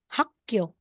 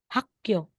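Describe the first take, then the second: No difference in how they are said.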